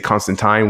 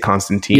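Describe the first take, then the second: First: The name is said the English way. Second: The name is said a non-English way. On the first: This is how English speakers say it. "in English, they say Constantine" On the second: This is how the speaker's own community says it. "we say Constantine"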